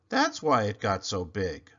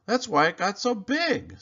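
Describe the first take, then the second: First: Lower, matter-of-fact echo. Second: Higher, louder eureka; excited realization. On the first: Desmond echoes Clayton in a lower calm voice. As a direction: repeat it as calm agreement. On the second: Clayton realizes why the pumpkin grew, high and excited. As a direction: exclaim it as the penny drops. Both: Acted.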